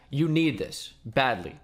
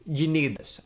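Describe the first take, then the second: First: "need" leaned on hard, words slowed right down; slow down and hit "need" hard; blunt, slow emphasis. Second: Said in the usual way. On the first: Shown as a demonstration. Vlogger urging viewers to buy the sponsor, slow and emphatic. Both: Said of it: "can't put it any more bluntly than that".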